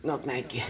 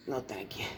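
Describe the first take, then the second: First: Said in the usual way. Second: Much softer, lower echo of the refusal; fading refusal. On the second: Acted. Repeating the refusal to the mayor's wife, fading to a mutter. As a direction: let it fade away under your breath.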